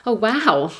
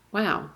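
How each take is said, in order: First: Louder, higher, delighted surprise; light up at the kind words; happy wow. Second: Sad wow. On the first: Mother touched that a neighbour greeted them, happy wow. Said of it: "The first wow was happy". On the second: Mother realising how rare kindness is, sad wow. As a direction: let the wow sink with sadness. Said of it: "the second one was sad". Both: Retold or imitated.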